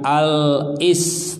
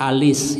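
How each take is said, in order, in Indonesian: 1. Al diucapkan terpisah, dengan hentian glotis. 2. Al langsung menyambung ke kata berikutnya tanpa jeda.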